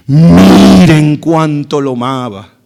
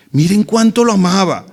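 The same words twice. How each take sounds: First: Loud, slow, drawn-out start; emphatic exclamation. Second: Said in the usual way. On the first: Acted. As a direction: draw out the first word loudly, marvelling. Voicing the onlookers' exclamation.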